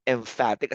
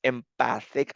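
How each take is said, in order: First: "emphatic" said em-FAT-ic with an f sound, like emphasis; correct word emphatic. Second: "empathic" said as em-PATH-ic without the f sound, like empathy; wrong word empathic. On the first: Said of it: "but emphatic as in emphasis". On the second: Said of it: "not empathic as in empathy". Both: Shown as a demonstration.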